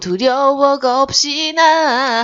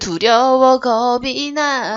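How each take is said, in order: First: It is said as geopsina, with an s sound. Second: It is said plainly as geobi na, without s. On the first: This is a dialect-flavored pronunciation that fits the song better. "사투리스러운 발음으로" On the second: This is the original lyric. "원래 가사는"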